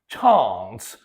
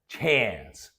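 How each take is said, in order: First: The vowel sounds like the one in father. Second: The vowel sounds like the one in cat. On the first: The speaker calls it wrong. "they may try to pronounce it with ah" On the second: The speaker calls it right. "air, as in cat"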